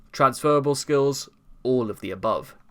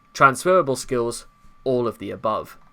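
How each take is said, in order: The two takes are said the same way.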